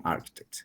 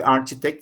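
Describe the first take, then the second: First: "architect" with ch turned into k; correct pronunciation. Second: "architect" said as spelt, with a church-like ch; spelling pronunciation. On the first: Teacher showing how the word is pronounced, with a hard k. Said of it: "pero se pronuncia con architect". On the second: Teacher showing how the word is written, pronounced with ch. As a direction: read "architect" by its letters, ch as in church. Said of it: "Se escribe architect". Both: Shown as a demonstration.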